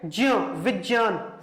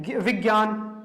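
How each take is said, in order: First: ज्ञ said slowly as "jña", विज्ञान as "vijñan"; ज्ञ slow and precise as "jña", not "gya"; pure pronunciation. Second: ज्ञ said as "gya", विज्ञान as "vigyan"; ज्ञ spoken "gya", the modern usual way; common spoken way. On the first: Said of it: "लेकिन शुद्ध क्या है?". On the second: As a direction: say ज्ञ-, विज्ञान the everyday way, with a hard g sound. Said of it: "लेकिन हम क्या बोलते हैं". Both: Shown as a demonstration.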